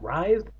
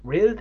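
First: "Writhed" with long eye vowel, rising; pronunciation query. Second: "Writhed" with short i, as "rithed"; pronunciation query. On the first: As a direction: say "Writhed" as "rythed", higher, unsure. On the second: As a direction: say "Writhed" as "rithed", high and questioning. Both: Real, not acted. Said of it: "How do you pronounce that?".

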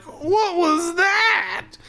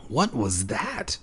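First: Squealed much higher and drawn out slowly; a hammed-up cartoon panic wail; mock frightened cry. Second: Hushed and slowed, much softer; a scared kid whispering in a dark basement; whispered. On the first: Steve hears creaking in the basement, mock terrified wail. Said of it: "so Steve was like". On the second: A narrator's reading. Boy hears creaking overhead, hushed and slow. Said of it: "I whispered".

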